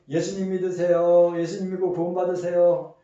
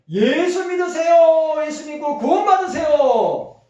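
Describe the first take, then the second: First: It is said softly and calmly. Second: It is said loudly and forcefully.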